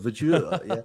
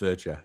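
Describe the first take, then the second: First: The name is said with a French-style ending. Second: The name is said with a plain English ending. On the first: The name is taken to be a fancy French name. The speaker calls it wrong. "I thought that Verger was like it was like a, a fancy French name" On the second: The name is an ordinary plain name. The speaker calls it right. "it's it's just Verger"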